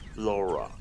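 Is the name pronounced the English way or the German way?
English. The name is pronounced the English way.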